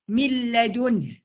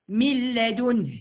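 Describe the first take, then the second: First: The n merges straight into the l. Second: The n merges straight into the l.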